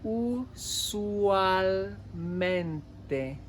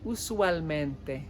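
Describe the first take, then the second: First: Usualmente stretched out syllable by syllable; very slow. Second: Said in the usual way. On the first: Shown as a demonstration. Teacher modelling the word, very slowly. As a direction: draw out every sound of Usualmente.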